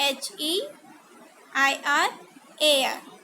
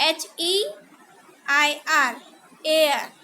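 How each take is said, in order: No difference in how they are said.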